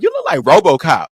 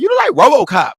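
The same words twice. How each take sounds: First: Said in the usual way. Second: High, loud insisting yell; emphatic shout. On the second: Retold or imitated. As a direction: shout it at him, doubling down. Insists after his reply.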